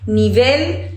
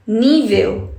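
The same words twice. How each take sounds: First: "Nível" stressed on the final syllable, ni-VEL; "Nível" as ni-VEL, rising at the end; stress on last syllable. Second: "nível" stressed on the first syllable, NÍ-vel; "nível" as NÍ-veu, falling at the end. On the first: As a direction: say "Nível" Spanish-style, ni-VEL with a clear final L. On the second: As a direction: say "nível" Portuguese-style, NÍ-veu. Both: Shown as a demonstration. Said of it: "diferente sílaba tônica".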